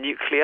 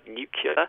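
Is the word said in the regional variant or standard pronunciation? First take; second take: standard; regional variant. First: It is said with the standard pronunciation. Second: It is said with a regional variant pronunciation. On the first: "rather than nuclear" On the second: "his pronunciation of the word nuclear"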